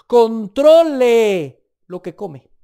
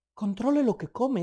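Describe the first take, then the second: First: Loud, slow, drawn-out command; preacher booming the rule, slow; stern command. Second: Said in the usual way. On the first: Acted. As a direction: hammer the warning home.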